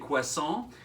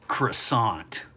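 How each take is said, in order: First: It is said with a French pronunciation. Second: It is said with an American English pronunciation. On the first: "a French speaker would say croissant" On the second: "what do we say in the U S?"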